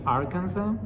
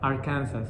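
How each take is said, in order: First: It is said the standard English way. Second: It sounds like Kansas with an R added. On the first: The speaker calls it right. "I mean Arkansas" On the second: The speaker calls it wrong. "it's just like Kansas, but just adding R at the beginning"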